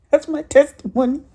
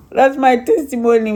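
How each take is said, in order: First: With a laugh in it, higher. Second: Louder, proclaiming it; firm declaration. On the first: To the church, wrapping up her testimony, laughing. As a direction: laugh through the words. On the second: To the church, closing her testimony with a firm declaration. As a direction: say it out to the congregation. Restates testimony firmly after laugh. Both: Real, not acted.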